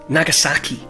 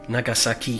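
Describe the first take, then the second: First: One syllable is stressed more than the others. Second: All syllables carry equal stress. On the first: This is how English speakers tend to say it. "you're putting emphasis on certain syllables" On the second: This is how people in Japan say it. "every s- syllable is equally stressed"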